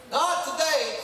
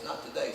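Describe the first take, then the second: First: Defiant shout. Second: Low, soft and steady no; quiet refusal. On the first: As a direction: shout it down, standing fast. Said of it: "you stand fast and say". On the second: Retelling buddy Aaron's answer to Satan, quiet and low. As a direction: say it calmly, under your breath. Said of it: "my buddy Aaron says". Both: Retold or imitated.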